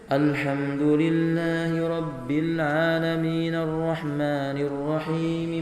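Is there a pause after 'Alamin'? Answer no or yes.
no. The verses run together without a pause. The speaker calls it wrong. "Nabi tidak membaca"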